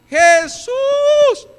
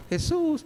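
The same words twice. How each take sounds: First: Very high, loud, sustained cry; desperate shout. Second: Soft, high little call; mock timid call. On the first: Acted. Woman crying out to Jesus as he passes, shouting. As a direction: shout the name across a crowd. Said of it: "¿Se acuerdan también quién gritó?". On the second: Preacher showing how she didn't call Jesus, timidly. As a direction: call out politely, much too softly. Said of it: "Y no cree que le hablaba".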